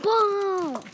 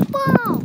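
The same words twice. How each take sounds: First: Higher, light playful call; cheery call. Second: Much higher, loud thrilled yell; excited shout. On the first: Pretend. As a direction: toss out ball playfully. Says ball again. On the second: Real, not acted. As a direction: shriek with joy at the ball. Spots a ball.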